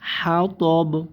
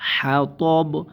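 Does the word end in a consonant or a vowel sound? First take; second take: consonant; consonant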